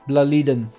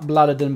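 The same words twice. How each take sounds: First: The word is pronounced in a Swedish way. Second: The word is pronounced in an English way. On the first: The speaker calls it right. "but Blåliden" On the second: The speaker calls it wrong. "So not Blåliden"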